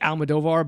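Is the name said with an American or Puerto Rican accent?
American. It is said with an American accent.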